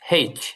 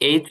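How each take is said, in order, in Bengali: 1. এটি একটি স্পষ্ট h ধ্বনি দিয়ে শুরু হয়। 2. এটি সরাসরি স্বরধ্বনি দিয়ে শুরু হয়, কোনো h নেই। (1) "মানে হয় একার" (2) "যেটা আমরা স্বাভাবিকভাবে বলি এইচ"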